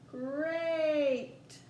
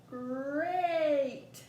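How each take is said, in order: First: "Great" drawn out slowly with the long A held; stretched again. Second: "Great" drawn out slowly with a falling end; stretched great. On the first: Teacher repeats the stretch to show the A, slow and drawn out. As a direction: stretch "Great" harder so the A sound rings. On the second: Teacher stretching a word for listening practice, slow and drawn out. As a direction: hold the vowel in "Great". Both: Shown as a demonstration. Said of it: "let's try again".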